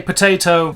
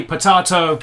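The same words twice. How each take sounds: First: Potato with a long AY, "puh-TAY-toe"; potayto pronunciation. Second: Potato with a broad AH, "puh-TAH-toe"; potahto pronunciation. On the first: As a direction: say potato to rhyme its middle with day. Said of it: "I say potato". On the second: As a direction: say potato with the middle as in father. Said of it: "you say potato". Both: Shown as a demonstration.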